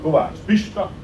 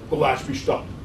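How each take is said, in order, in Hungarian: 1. A név mindkét részének saját hangsúlya van. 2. A névnek egy hangsúlya van, az elején. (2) "a nevek azok egyhangsúlyosak"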